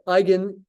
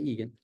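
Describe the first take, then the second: First: The first vowel sounds like 'eye'. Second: The first vowel sounds like 'ee'. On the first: The speaker calls it right. "Say eigen. E I in German sounds like an I" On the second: The speaker calls it wrong. "Don't say Egan"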